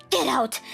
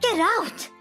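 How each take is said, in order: First: Higher shout; yelling. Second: Much higher, louder shriek; shrill shriek. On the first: Mother-in-law ordering her out, yelling. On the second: Mother-in-law screaming her out of the house, shrill shriek. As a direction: scream Get out at the top. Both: Acted. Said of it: "She was yelling".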